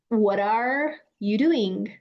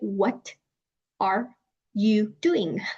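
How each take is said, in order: First: The words run smoothly together without breaks. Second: Each word is said separately with breaks. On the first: The speaker calls it right. "you're combining the sounds" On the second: The speaker calls it wrong. "you guys don't say"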